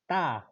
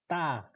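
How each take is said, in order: First: The syllable starts with an Estonian-style T. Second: The same.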